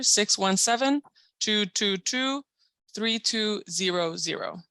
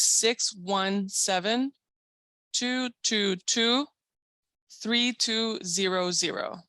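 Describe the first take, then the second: First: The number is read a little faster. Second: The number is read more slowly.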